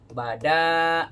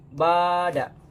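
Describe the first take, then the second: First: The second syllable's vowel is long. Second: The first syllable's vowel is long. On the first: The speaker calls it right. "Yang dipanjangkan adalah danya" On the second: The speaker calls it wrong. "Nah itu justru dua kesalahan"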